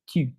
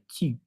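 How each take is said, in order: First: The vowel is a rounded French 'u' sound. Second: The vowel is a rounded French 'u' sound.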